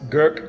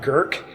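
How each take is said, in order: First: The word is said with no R sound. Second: The word is said with an R sound. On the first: The speaker calls it right. "it's Guk" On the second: The speaker calls it wrong. "not Gurk. There's no R in there"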